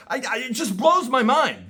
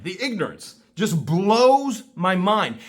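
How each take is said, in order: First: Half-shouted disbelief; exasperated outburst. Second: Slow, each word weighed; slow down and let it sink in; deliberate, slowed-down disbelief. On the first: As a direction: let it burst out of you. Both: Real, not acted. Exasperated rant about ignorance.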